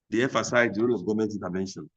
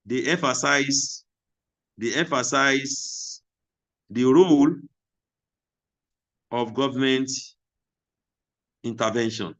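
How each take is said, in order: First: Said in the usual way. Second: Slow, word by word, with long gaps; teacher dictating at writing speed; slow dictation. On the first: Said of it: "repeats after dictation". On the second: Shown as a demonstration. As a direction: spell it out slowly for note-takers. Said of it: "teacher dictating to class".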